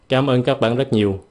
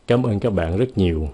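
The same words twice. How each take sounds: First: Stiff foreign-sounding Vietnamese, no feeling; flat, unfeeling thanks in stiff Vietnamese; stiff, cold thanks. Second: Warm thanks. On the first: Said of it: "câu thứ nhì nghe rất là cứng". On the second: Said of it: "Cái câu thứ nhì nghe ít thông cảm hơn". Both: Shown as a demonstration.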